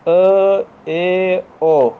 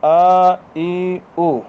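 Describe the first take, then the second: First: The vowels shift toward short a, e, o. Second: The vowels are clear pure a, i, u. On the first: The speaker calls it wrong. "ये मजहूल हरकत है।" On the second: The speaker calls it right. "ये मालूम हरकत है।"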